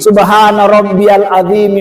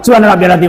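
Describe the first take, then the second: First: The phrase is recited slowly and deliberately. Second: The phrase is recited quickly and hurriedly. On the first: The words are said with understanding and attention. The speaker calls it right. "bacaannya itu pelan-pelan" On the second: The words are rushed without attention to meaning. The speaker calls it wrong. "kalau kayak gini"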